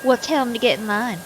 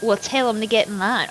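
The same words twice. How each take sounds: First: Sassy Southern lady. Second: Put-on "Well, tell 'em to get in line" read in a light Southern country accent, not sassy; a mild first pass in the country voice. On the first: Acted. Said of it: "I'm gonna be a sassy Southern lady". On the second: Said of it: "I am country today".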